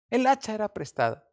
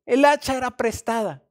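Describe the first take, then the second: First: Said in the usual way. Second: Louder, higher lament over the borrowed axe; desperate cry. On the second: Retold or imitated. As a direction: wail it out in alarm. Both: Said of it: "gritó".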